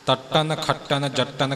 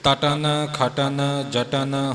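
First: The words are said with hard, forceful consonants. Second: The words are said softly and lightly. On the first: The speaker calls it wrong. "ਕਰਕੇ ਨਹੀਂ ਬੋਲਣਾ" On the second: The speaker calls it right. "ਇਉਂ ਪੋਲੇ ਰੂਪ ਵਿੱਚ ਹੀ ਉਚਾਰਨ ਕਰਨੇ ਨੇ"

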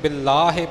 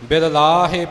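First: The two L sounds merge into one. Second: Both L sounds are pronounced separately. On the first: "ਆਮ ਪਾਠੀ Singh ਬਿਲ ਲਾਹੇ ਪਾਠ ਕਰ ਜਾਂਦੇ ਨੇ" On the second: "ਦੋਨੋਂ ਲੱਲਿਆਂ ਦਾ ਉਚਾਰਨ ਕਰਕੇ ਹੋਵੇਗਾ"

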